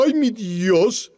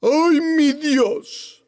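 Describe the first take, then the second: First: Slow, earnest "Ay, mi Dios" as a real call; reverent, slow "Ay, mi Dios" calling on God; sincere plea. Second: Drawn-out, high mocking "Ay, mi Dios"; scornful, sing-song "Ay, mi Dios" drawn out very slowly. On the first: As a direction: call "Ay, mi Dios" slowly, meaning it. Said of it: "lo llamo porque tengo necesidad". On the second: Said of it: "Es burla". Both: Shown as a demonstration.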